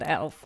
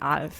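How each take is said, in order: First: The name is said with an English pronunciation. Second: The name is said with a German pronunciation. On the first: "not Elf" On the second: "We call him in German Alf"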